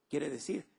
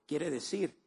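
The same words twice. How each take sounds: The two takes are said the same way.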